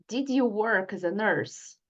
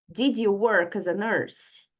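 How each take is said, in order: The two takes are said the same way.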